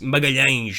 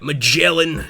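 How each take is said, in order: First: The name is said with Portuguese sounds. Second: The name is said with English sounds. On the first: The speaker calls it right. "it's Magalhães, is the way you say it" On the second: The speaker calls it wrong. "People say Magellan"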